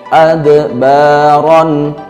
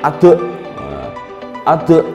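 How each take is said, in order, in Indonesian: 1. Huruf d yang dipantulkan mengalir halus ke dalam kata. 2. Huruf d yang dipantulkan terputus-putus. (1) "harus melandai ya" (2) "nggak boleh ade ade"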